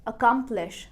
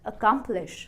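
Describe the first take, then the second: First: The middle syllable is stressed. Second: The same.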